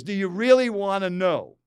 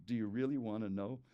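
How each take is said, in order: First: Raised voice, much louder and higher; booming, exasperated retort; loud annoyed challenge. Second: Restrained irritation, lower in pitch; understated angry challenge; annoyed, angry tone. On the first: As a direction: throw the question out loud and irritated. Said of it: "In that kind of tone, not that loud". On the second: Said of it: "annoyed, angry tone". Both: Retold or imitated.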